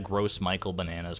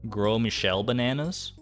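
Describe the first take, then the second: First: The name sounds like English 'gross Michael'. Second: The name is said with a French pronunciation.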